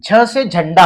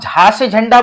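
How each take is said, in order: First: The first syllable ends in a short 'a' vowel. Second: The first syllable ends in a long 'aa' vowel. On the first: The speaker calls it right. "झ से झंडा होगा" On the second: The speaker calls it wrong. "आप झा से झंडा बोलेंगे तो गलत है"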